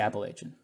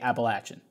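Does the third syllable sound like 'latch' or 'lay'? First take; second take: lay; latch. First: The third syllable sounds like 'lay'. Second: The third syllable sounds like 'latch'. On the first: It is the speaker's native form. "I don't natively say it that way. I say Appalachian" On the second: It is the form others expect. "I would try to get ahead of it and say Appalachian"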